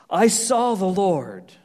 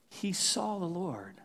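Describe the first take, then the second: First: "I saw the Lord" drawn out slow and loud, falling at the end; proclaimed slowly. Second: "He saw the Lord" dropped to a soft hush, stress on "saw", falling; hushed echo. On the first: Preacher reading Isaiah's vision to the congregation, slow and loud. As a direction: announce the vision with slow, heavy weight. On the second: Preacher quietly echoing Isaiah's vision to the congregation, hushed. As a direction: let it land softly, almost in awe. Echoed softly after the vision. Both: Acted.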